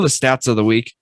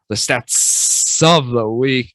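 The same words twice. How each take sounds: First: The word stats is said plainly. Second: The word stats is strongly emphasized.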